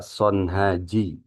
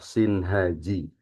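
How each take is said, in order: First: The first vowel sounds like 'o'. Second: The first vowel sounds like 'i'. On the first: This is another reading some people use. The speaker calls it wrong. "Ada juga yang membaca Sonhaji" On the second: This is the more eloquent reading. The speaker calls it right. "yang lebih fasih menurut Imam Asyuyuti dibaca kasroh Sinhaji"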